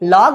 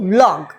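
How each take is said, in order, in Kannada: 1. ಈ ಪದ 'v' ಶಬ್ದ ಇಲ್ಲದೆ ಶುರು ಆಗುತ್ತೆ. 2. ಈ ಪದ 'v' ಶಬ್ದದಿಂದ ಶುರು ಆಗುತ್ತೆ. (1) "ಲಾಗ್ ಅಲ್ಲಪ್ಪ" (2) "ಅದು ವ್ಲಾಗ್"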